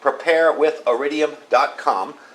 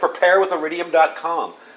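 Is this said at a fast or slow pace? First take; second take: slow; fast. First: It is said slowly and deliberately. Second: It is said at a normal, quick pace. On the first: "so I'll say it slow" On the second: "I know I speak too fast sometimes"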